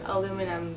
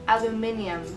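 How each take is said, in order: First: It is said with four syllables, American-style. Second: It is said with an extra syllable, British-style.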